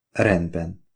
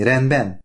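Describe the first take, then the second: First: Said in the usual way. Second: "rendben?" lifted higher as a question; gentle question. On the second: A narrator's reading. Wife asks Oliver about going to sleep, questioning "rendben?". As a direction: ask "rendben?" with a raised pitch. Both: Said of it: "kérdezte".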